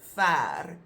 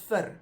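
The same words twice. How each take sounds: First: The vowel is long, sounding like 'fair'. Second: The vowel is short, not like 'fair'. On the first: The word stands alone and means far. "is pronounced fair" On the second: The word is a prefix attached to another word. "when it's attached to something else, it becomes ver"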